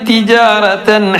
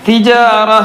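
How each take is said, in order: First: The word ends with a pronounced '-tan' ending. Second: The word ends without the '-tan' ending. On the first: The reciter continues to the next word. "നിർത്തുന്നില്ല എങ്കിൽ" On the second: The reciter stops at this word. "താ അവിടെ നിർത്തുകയാണെങ്കിൽ"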